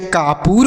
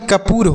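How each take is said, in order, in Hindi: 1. पहला स्वर लंबा है, जैसे 'aa'। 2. पहला स्वर छोटा है, जैसे 'a'। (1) "कापूर तो कोई शब्द नहीं है" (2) "कपूर होता है ना, यह शब्द सही है"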